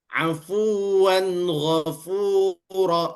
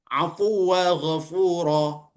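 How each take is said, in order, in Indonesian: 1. Kata pertama berakhir dengan 'an', tersambung. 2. Kata pertama berakhir dengan 'aa' panjang. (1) "kita mau sambung pada ayat setelahnya" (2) "Tidak boleh dibaca"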